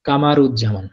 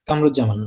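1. এটা Ka-ma-ruz-zaman হিসেবে উচ্চারিত হয়, মাঝের স্বরবর্ণ সহ। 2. এটা Kam-ruz-zaman হিসেবে উচ্চারিত হয়, মাঝের স্বরবর্ণ ছাড়া। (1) "এটা কিন্তু নাম হবে কামারুজ্জামান" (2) "কামরুজ্জামান না"

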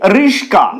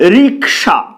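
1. s ধ্বনিটি k ধ্বনির আগে আসে। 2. k ধ্বনিটি s ধ্বনির আগে আসে। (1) "সেটাকে অনেকে বলে রিক্সা" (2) "সঠিক শব্দ হলো রিক্সা"

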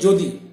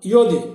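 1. শব্দটি 'j' ধ্বনি দিয়ে শুরু হয়। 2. শব্দটি 'y' ধ্বনি দিয়ে শুরু হয়। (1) "জ উচ্চারণ করি" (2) "কিন্তু এটা ইয়দি"

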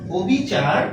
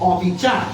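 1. প্রথম স্বরটি একটি বদ্ধ 'o' ধ্বনি। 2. প্রথম স্বরটি একটি খোলা 'aw' ধ্বনি। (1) "যারা আমরা বলতেছি যে এটার উচ্চারণ ও বিচার, তারা আমরা ভুল বলতেছি।" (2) "এই শব্দের উচ্চারণ হবে অবিচার, অর্থাৎ এখানে অ এর উচ্চারণ ঠিক থাকবে।"

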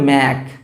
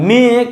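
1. স্বরধ্বনিটি 'æ', শেষ হয়েছে 'k' দিয়ে। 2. স্বরধ্বনিটি 'e', শেষ হয়েছে 'gh' দিয়ে।

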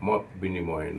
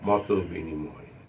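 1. প্রথম শব্দটি কোনো স্বরধ্বনি ছাড়া শেষ হয়। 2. প্রথম শব্দটি ও স্বরধ্বনি দিয়ে শেষ হয়। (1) "মত বিনিময় না" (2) "সেজন্য এটা মত বিনিময়"

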